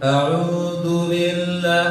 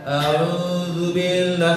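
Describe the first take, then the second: Both takes have the same delivery.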